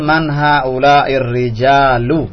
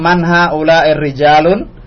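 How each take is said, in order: First: The final word ends without an n sound. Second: The final word ends with an added n sound. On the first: The speaker calls it right. "Yang betul" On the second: The speaker calls it wrong. "tadi antum bilang"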